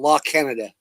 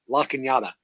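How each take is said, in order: First: The name is said like the country Canada. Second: The name is said unlike the country Canada. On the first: This is how the name is written. "It's literally spelled La Canada" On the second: This is how locals say the name. "they pronounce it La Canada"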